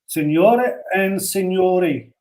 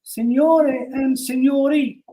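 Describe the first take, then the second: First: It is said in the speaker's own voice. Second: It is said in a put-on female voice.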